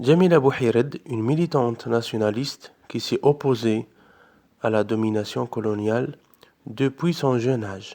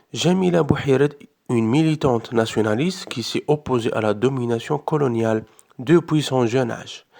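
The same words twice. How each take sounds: Both takes have the same delivery.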